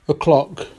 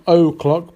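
First: The first vowel is a weak schwa sound. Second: The first vowel is a full 'o' sound. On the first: The speaker calls it right. "but with the schwa sound" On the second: The speaker calls it wrong. "not o'clock"

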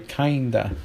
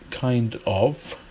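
First: The words blend into one reduced word. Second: The two words are said separately in full. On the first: This is the American way of saying it. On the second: This is the British way of saying it.

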